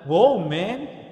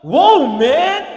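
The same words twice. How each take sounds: First: Said in the usual way. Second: Loud, higher, wide-eyed wow; amazed exclamation. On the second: Acted. Adam seeing Eve for the first time, loud amazed wow. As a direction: gasp it out in awe at the first sight of her. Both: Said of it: "bakit woman?".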